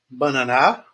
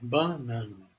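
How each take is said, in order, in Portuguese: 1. A sílaba tônica não está na do meio. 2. A sílaba tônica está na do meio. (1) "Não é bananá" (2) "É banana"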